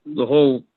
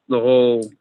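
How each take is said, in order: Both takes have the same delivery.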